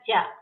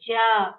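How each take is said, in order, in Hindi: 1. स्वर छोटा और तेज़ है। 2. स्वर लंबा खींचा जाता है।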